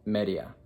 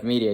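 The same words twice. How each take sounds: First: "media" said the Spanish way, MEH-dee-ah. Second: "media" said the English way, MEE-dee-uh. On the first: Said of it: "you just say". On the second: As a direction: read "media" as the English word, with a long ee. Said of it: "instead of media". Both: Shown as a demonstration.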